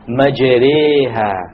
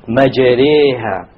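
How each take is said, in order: First: The vowel after the r leans toward e. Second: The vowel after the r leans toward e.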